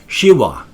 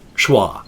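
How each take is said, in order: First: The name is said with two syllables. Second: The name is said with one syllable. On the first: The speaker calls it right. "it was closer to Shiwa" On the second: The speaker calls it wrong. "not Schwa"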